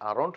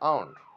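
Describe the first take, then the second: First: The r sound is pronounced. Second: The r sound is dropped. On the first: The speaker calls it wrong. "আরন্ট না বলে" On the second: The speaker calls it right. "আমরা বলবো আউন্ট"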